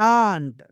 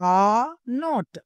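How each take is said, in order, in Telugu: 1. రెండు పదాలు కలిసి ఒకే చిన్న అక్షరంగా పలుకుతారు. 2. రెండు పదాలనూ పూర్తిగా, విడివిడిగా పలుకుతారు.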